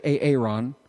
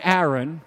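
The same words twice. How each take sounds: First: "Aaron" said as A-A-ron, long A split off; joking mispronunciation of Aaron. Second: Said in the usual way. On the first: Shown as a demonstration. Preacher jokes on how some people say it, "Aaron" as A-A-ron. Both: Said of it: "or as some people say".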